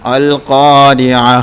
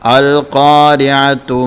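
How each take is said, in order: First: The word ends in a ha sound, with a stop. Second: The word ends in a ta sound, joined on. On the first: The reading stops at this word. "വഖഫ് ചെയ്യുന്ന സമയത്ത് ഹ ആയിട്ടും ഉച്ചരിക്കും" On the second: The reading continues without stopping. "ഇവിടെ താ ആയിട്ടാണ് നമ്മൾ ഉച്ചരിക്കുക"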